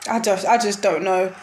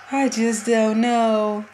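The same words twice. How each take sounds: First: Said in the usual way. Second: Slow, drained, resigned; resigned despair. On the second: Real, not acted. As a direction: let it sink in hopelessly.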